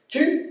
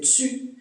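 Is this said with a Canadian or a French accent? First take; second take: French; Canadian. First: It starts with a plain t sound. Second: It starts with a ts sound.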